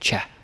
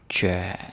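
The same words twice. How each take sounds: First: The word is said short and clipped. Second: The word is said slowly and drawn out. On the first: The speaker calls it wrong. "it sounds like you're trying to speak uh, Russian" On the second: The speaker calls it right. "you gotta say it right"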